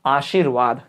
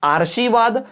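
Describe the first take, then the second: First: आशीर्वाद slow and low, "aa-shee-r-vaad"; correct r placement. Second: आर्शीवाद with r before sh, "aar-shee-vaad"; r sounded early. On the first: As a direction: pronounce आशीर्वाद with r after shee, just before vaad. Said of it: "सही उत्तर क्या होगा?". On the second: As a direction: pronounce आर्शीवाद with the r straight after aa. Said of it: "र पहले, यानी आर्शीवाद". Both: Shown as a demonstration.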